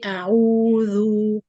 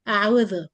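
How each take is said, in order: First: The lips are rounded and pushed forward. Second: The lips stay unrounded and relaxed. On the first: The speaker calls it right. "I have to bring the lips like this" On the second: The speaker calls it wrong. "The sound is not good and not clear and doesn't give any dhamma sound"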